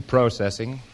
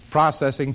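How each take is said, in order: First: "processing" with a long O, PROH-sessing; American pronunciation. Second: "processing" with the first syllable like "pross", the short British O; British pronunciation. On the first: Contrasting with the American pronunciation he keeps, American "processing". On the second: Demonstrating his careful London pronunciation to the audience, British "processing". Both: Shown as a demonstration. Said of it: "I have to pronounce processing".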